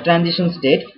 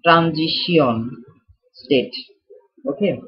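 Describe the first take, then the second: First: Said in the usual way. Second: Transition state drawn out slowly in a mock French accent, like rand-jee-see-on; slow, hammed-up French accent on Transition state. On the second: Teacher repeats the term for the class in a slow mock French accent. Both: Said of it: "How was my French accent".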